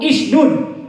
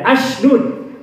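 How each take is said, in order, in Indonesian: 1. Kata ini diawali dengan vokal i. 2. Kata ini diawali dengan vokal a. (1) "atau ishdud" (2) "baca tidak ashdud"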